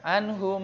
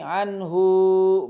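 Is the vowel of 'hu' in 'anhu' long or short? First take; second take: short; long. First: The final vowel of hu is kept short. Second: The final vowel of hu is drawn out long. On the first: The speaker calls it right. "tidak dibaca panjang hu-nya" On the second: The speaker calls it wrong. "Tidak dibaca begini"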